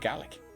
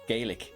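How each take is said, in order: First: It is said with the Scottish pronunciation. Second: It is said with the Irish pronunciation. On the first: "in Scotland they say Gaelic" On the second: "in Ireland we would say Gaelic"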